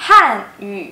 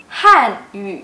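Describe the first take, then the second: No difference in how they are said.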